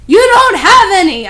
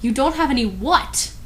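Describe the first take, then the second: First: High, loud unhinged yell; hammed-up furious yell; mad yell. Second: Said in the usual way. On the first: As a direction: yell it madly. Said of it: "I yelled in madly". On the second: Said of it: "baffled re-read".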